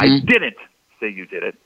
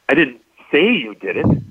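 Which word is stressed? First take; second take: didn't; say. First: The stress is on the word didn't. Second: The stress is on the word say.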